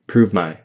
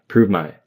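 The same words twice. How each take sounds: No difference in how they are said.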